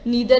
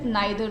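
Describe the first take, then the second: First: The first vowel sounds like ee. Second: The first vowel sounds like eye. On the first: "नीदर is American accent" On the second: "नाइदर is British accent"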